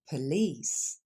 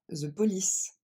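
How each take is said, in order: First: Police with the first vowel swallowed, "p'lice"; police said like "plice"; reduced first vowel. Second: The police with a full first vowel; the police said too carefully; wrong full vowel. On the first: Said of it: "on dit". (police avec le premier e avalé) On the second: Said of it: "on ne dit pas". (the police avec toutes les voyelles pleines) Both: Shown as a demonstration.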